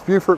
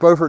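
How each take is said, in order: First: The first syllable sounds like the start of beautiful. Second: The first syllable does not sound like beautiful. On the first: This is the local name of the South Carolina city. "we pronounce Beaufort because it's so beautiful" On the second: This is the name of the North Carolina town. "they pronounce it Beaufort, North Carolina"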